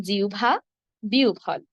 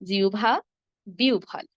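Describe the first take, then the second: Both takes have the same delivery.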